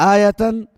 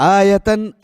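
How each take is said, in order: The two takes are said the same way.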